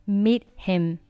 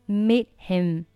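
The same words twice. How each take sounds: The two takes are said the same way.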